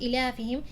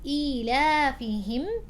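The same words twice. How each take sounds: First: The long ya sound is dropped. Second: The long ya sound is clearly voiced. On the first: The speaker calls it wrong. "It's not" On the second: The speaker calls it right. "It's a small ya, but it's pronounced"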